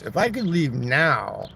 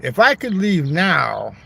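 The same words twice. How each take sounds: First: Said in the usual way. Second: Louder take. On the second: Shown as a demonstration.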